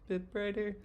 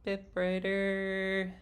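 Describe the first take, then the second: First: The resonance is between darkest and brightest. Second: The resonance is the brightest of the three.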